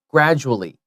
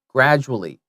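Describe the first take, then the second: First: It is said quickly with the middle syllables merged. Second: It is said quickly with the middle syllables merged.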